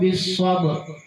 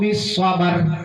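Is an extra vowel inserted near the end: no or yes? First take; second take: no; yes. First: The word ends without any added vowel. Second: An extra vowel is inserted before the final consonant. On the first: The speaker calls it right. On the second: The speaker calls it wrong.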